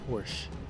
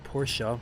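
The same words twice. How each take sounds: First: The name is said the American way. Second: The name is said the German way. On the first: This is how Americans say it. "in American, it is" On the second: This is how Germans say it. "We don't say"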